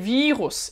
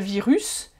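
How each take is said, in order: First: The stress is on the first syllable. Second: The stress is on the last syllable. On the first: The speaker calls it right. "on accentue plutôt la première syllabe" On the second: The speaker calls it wrong. "c'est pas virus"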